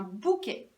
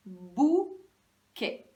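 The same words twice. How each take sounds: First: Said in the usual way. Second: "Bouquet" slow, bou louder, then a gap; first syllable isolated. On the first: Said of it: "celui-là". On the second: Shown as a demonstration. Teacher sounding out the new word, first syllable isolated. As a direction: hold and punch bou, then finish "Bouquet". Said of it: "J'entends la même chose au début".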